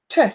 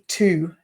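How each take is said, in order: First: The word is reduced almost to a t sound. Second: The word has a full, clear vowel. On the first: The speaker calls it right. "we change it to t, and it's almost like we're just saying the letter t" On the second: The speaker calls it wrong. "we wouldn't say to normally"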